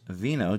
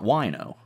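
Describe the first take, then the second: First: The word begins with a V sound. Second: The word begins with a W sound. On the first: The speaker calls it right. "is also the Polish pronunciation for wine" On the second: The speaker calls it wrong. "so it's not wino"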